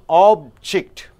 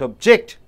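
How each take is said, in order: First: The stress is on the first syllable. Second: The stress is on the second syllable. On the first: The word is used as a noun. "is a noun" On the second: The word is used as a verb. "Suppose if it is a verb, you're stressing on object"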